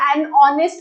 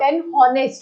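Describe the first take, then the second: First: The word starts with a vowel, no h sound. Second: The word starts with a clear h sound. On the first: The speaker calls it right. "An ऑनेस्ट बोला जाता है" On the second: The speaker calls it wrong. "Not an हॉनेस्ट, हॉनेस्ट नहीं बोला जाएगा"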